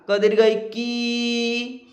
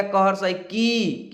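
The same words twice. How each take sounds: First: "की" with the ee held long and level; long vowel. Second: Said in the usual way. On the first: Shown as a demonstration. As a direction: stretch out the final ee of "की". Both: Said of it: "थोड़ी सी खींच देंगे क्योंकि वो बड़ी है".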